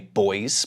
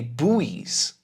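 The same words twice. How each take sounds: First: The word is said in a British accent. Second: The word is said in an American accent. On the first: "In British English, we say buoys" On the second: "in American English, we say buoys"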